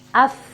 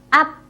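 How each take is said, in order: First: It ends with air escaping through lip and teeth. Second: It ends with a closed p stop, no air. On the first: The speaker calls it right. "Ada hamesnya. Ada udaranya yang terlepas" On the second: The speaker calls it wrong. "Jadi bukan up"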